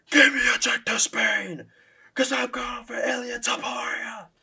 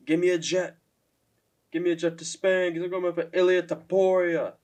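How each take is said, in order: First: Much higher, louder and slow shouted call-out; Michael Chandler energy. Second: A mild imitation of a half-hearted demand; O'Malley's flat call-out. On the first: Pretend. Vlogger shows how the callout should sound, a high slow fired-up shout. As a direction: roar the demand like a hyped fighter. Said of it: "if he gave that Michael Chandler energy". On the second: Vlogger mimics O'Malley's callout, a touch flat and unexcited. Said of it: "the way, like, he's like".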